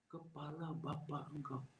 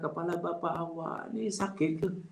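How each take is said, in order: First: It is said in a rude, insulting tone. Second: It is said as a polite, concerned question.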